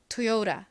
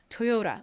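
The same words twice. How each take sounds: First: It is said with a flapped r-like sound. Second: It is said with a flapped r-like sound.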